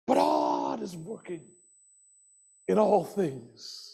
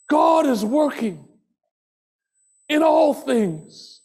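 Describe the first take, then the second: First: Low, quiet, slow declaration; soft refrain. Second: Proclaimed refrain. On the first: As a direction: say it softly, letting it sink in. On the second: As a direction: proclaim it to the room. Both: Acted. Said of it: "repeated refrain, soft then loud".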